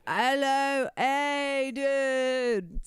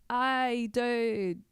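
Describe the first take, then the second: First: High, drawn-out mock British accent; exaggerated British greeting, stretched like a drunk. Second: Lightly imitated drunk, higher pitch; high, drawn-out drunk impression; drunk person. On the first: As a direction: put on a hammy, high-pitched British accent. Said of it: "a British accent just sounds like anyone who's drunk". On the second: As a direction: stretch it out like a mock drunk. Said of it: "sounds like anyone who's drunk". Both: Shown as a demonstration.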